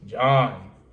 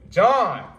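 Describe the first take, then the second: First: The name is said in an annoyed tone. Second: The name is said in a happy tone. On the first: The speaker is irritated with the person. "I'm annoyed" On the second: The speaker is glad to see the person. "that means I'm happy to see him"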